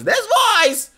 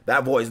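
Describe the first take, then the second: First: High, loud caricature of a nerd; nerdy voice. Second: Said in the usual way. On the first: Shown as a demonstration. Streamer demonstrates the disputed voice to his chat, high nerdy voice. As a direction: put on an exaggerated nerdy voice. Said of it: "Nerdy voices are not exclusive". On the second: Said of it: "I'm gonna keep doing the voice".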